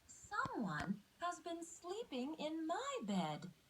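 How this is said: It is said in a tiny, high voice.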